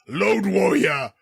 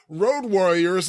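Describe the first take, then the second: First: The first word starts with an L sound. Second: The first word starts with a clear R sound. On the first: The speaker calls it wrong. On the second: The speaker calls it right.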